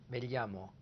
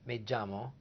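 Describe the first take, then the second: First: The double L sounds like L plus Y. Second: The double L sounds like a J. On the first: "Or a L Y sound, as in me llamo, in Spain" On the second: "A J sound, Puerto Rico"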